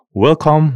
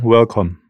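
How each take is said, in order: First: First welcome called out high and loud; a big high greeting to the arriving guests; welcoming cry. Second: The greeting repeated with a falling close; echoing cry. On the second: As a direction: let the repeated welcome drop down at the end. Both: A narrator's reading. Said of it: "the Lord's adjusters cried".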